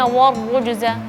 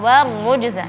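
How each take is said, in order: First: The opening wa is pronounced thick and heavy. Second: The opening wa is pronounced thin and light. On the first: The speaker calls it wrong. "jangan sampai bacanya warrujza" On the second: The speaker calls it right. "waw di sini seharusnya tipis wa"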